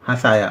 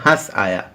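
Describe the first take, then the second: First: The parts run together with no pause between them. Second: There is a short pause between the two parts. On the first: One word with a different meaning is heard. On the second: Two separate words are meant.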